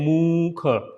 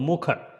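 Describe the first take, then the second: First: The u vowel is said long. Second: The u vowel is said short. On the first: The speaker calls it wrong. "Don't say mukha" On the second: The speaker calls it right. "So it is a small sound"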